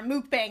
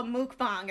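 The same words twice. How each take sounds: First: "mukbang" rhyming its end with "hang"; second pronunciation variant. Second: "mukbang" with an AH in the last syllable; first pronunciation variant. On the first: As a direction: say "mukbang" as MOOK-bang. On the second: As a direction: say "mukbang" as MOOK-bong. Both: Shown as a demonstration. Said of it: "however the heck you pronounce".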